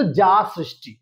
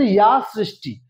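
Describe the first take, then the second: First: যা সৃষ্টি opening on a hard ja; wrong pronunciation. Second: ইয়া সৃষ্টি with ইয়া as a clear glide ya; correct pronunciation. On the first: Teacher imitates the common wrong reading. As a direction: mimic the common mistake যা সৃষ্টি with ja. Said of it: "উচ্চারণ করবে কিন্তু যা সৃষ্টি". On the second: Teacher models the correct opening of the shloka. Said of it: "উচ্চারণ করছি ইয়া সৃষ্টি". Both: Shown as a demonstration.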